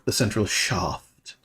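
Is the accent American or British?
British. It is said in a British accent.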